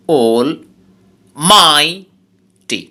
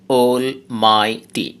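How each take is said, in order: First: Almighty broken up slowly, MIGH loud and stretched; stress on middle syllable. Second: Almighty in three separate, evenly weighted syllables. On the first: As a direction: punch the MIGH in almighty, pausing between syllables. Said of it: "মাঝখানের সিলেবলটাকে জোরে বলতে হবে". (almighty ভেঙে ধীরে, মাঝের সিলেবলে জোর) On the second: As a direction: say almighty slowly, pausing between syllables. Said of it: "এই ওয়ার্ডে তিনটা সিলেবল". (almighty শব্দটি তিন সিলেবলে ভেঙে সমানভাবে ধীরে বলা) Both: Shown as a demonstration.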